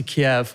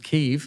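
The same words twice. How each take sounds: First: "Kiev" said in two syllables, kee-EV; "Kiev" as kee-EV, not as one syllable; old pronunciation of Kiev. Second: "Kyiv" said as one syllable, KEEV; "Kyiv" pronounced KEEV, the corrected way; corrected pronunciation of Kyiv. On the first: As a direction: say "Kiev" the familiar English way, ending in "-ev". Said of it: "which I learned is correctly pronounced Kyiv". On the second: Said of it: "is correctly pronounced Kyiv". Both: Shown as a demonstration.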